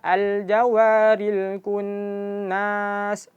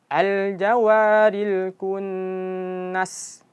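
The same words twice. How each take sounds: First: The vowel after the n is drawn out. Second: The vowel after the n is kept short. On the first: The speaker calls it wrong. "jangan baca" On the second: The speaker calls it right. "Dan nunnya pendek"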